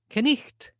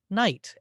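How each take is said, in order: First: The K at the start is pronounced. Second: The K at the start is silent. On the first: This is the pronunciation before the Great Vowel Shift. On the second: This is the modern pronunciation.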